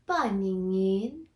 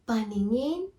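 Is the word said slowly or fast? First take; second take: slowly; fast. First: It is said very slowly. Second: It is said a little faster.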